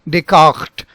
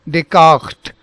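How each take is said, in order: Both takes have the same delivery.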